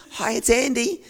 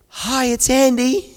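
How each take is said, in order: First: Much higher and louder, cheery hello; chirpy phone hello; hopeful greeting. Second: Much higher, louder, slow bright hello; overly cheery phone greeting; hopeful greeting. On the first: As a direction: greet the caller with eager hope. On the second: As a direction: answer the phone hoping for good news. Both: Retold or imitated. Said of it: "hoping it's gonna be good news".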